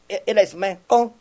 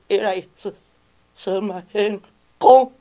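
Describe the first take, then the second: First: The voice is plain and steady. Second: The voice is weak and trembling. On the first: The speaker calls it right. "もう普通で" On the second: The speaker calls it wrong. "お前中風かお前は"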